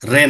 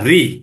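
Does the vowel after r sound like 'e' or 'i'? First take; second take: e; i. First: The vowel after r sounds like 'e'. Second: The vowel after r sounds like 'i'. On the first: The speaker calls it wrong. "রে না" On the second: The speaker calls it right.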